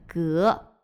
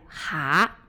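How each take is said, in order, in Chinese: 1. 这个音节读 gé，如 gélí。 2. 这个音节读 há，如 háma。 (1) "第一个读音就是这里的蛤" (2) "第二个读音是蛤，是青蛙和癞蛤蟆的统称"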